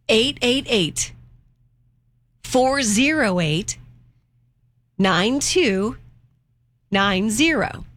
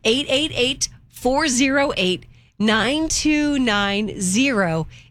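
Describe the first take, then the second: First: The number is said slowly. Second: The number is said at normal speed.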